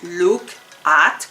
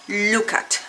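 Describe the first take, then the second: First: The two words are said separately with a break. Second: The two words run together as one word. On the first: The speaker calls it wrong. "como si fueran dos palabras distintas" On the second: The speaker calls it right. "como si fuera una sola palabra pronunciada"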